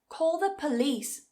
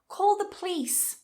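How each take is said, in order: First: Police is said with two full syllables. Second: Police is squeezed into a single syllable. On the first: "two syllables" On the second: "one syllable"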